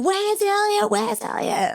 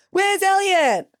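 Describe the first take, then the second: First: Very high, sustained mimed shout; retold calling out. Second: High mimed shout that falls away; retold call back. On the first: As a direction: call across water on one high held note. Retold calling to rescuers about missing friend. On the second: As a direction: echo the question as a high, falling call. Rescuers' retold shouted question back.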